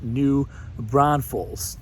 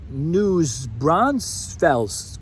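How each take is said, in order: First: The first word ends without any s sound. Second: The first word ends with an added s sound. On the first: The speaker calls it right. "It's pronounced New Braunfels" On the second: The speaker calls it wrong. "we hear News Braunfels quite a bit"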